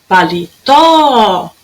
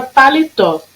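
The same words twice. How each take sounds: First: "Paletó" called out with a very long final tó; chamando, TÓ esticado. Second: Said in the usual way. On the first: Shown as a demonstration. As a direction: hold the tó of "Paletó" like a call. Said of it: "Qual durou mais?". ("Paletó" chamado com o tó bem comprido)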